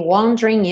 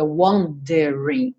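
First: The middle vowel is dropped, giving two syllables. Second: The middle vowel is pronounced as a full syllable. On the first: The speaker calls it right. "o E do meio não é pronunciado" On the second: The speaker calls it wrong. "não diga wondering"

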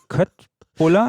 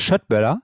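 First: The word begins with a hard 'k' sound. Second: The word begins with a soft 'sh' sound. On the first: This follows the spelling. "Wird ja geschrieben Köttbuller" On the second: This is close to the original pronunciation. "wenn du es so aussprichst, was glaube ich halbwegs richtig ist"

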